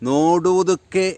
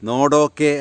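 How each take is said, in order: First: The word is said in its full, longer form. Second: The word is said in a shortened, contracted form. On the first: This is the formal written form. "എന്നാണ് പറയേണ്ടത്" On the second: This is the everyday spoken form. "സ്പോക്കണായി"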